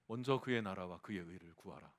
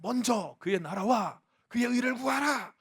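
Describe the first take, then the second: First: The phrase is said in a restrained, quieter voice. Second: The phrase is shouted out in a loud voice. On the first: The speaker calls it wrong. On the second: The speaker calls it right.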